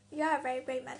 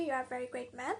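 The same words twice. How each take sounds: First: Chuckling through a compliment; amused praise, a bit quicker; laughing. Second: Said in the usual way. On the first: Real, not acted. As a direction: say it with a real laugh in the voice. Laughs while praising the patient.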